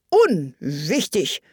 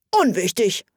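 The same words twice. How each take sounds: First: Unwichtig drawn out slowly, weighing it; slow, trying the word. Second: Said in the usual way. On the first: A narrator's reading. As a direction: say unwichtig slowly, testing its sound. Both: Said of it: "als ob er versuchte, welches Wort am besten klänge".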